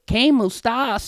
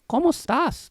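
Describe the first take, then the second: First: It is said in a put-on southern accent. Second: It is said in a plain accent.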